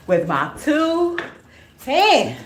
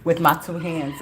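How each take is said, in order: First: "With my two hands" slow and much higher, each word spaced; stress on two hands. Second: Said in the usual way. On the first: Shown as a demonstration. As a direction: stretch out "two" and "hands" up high.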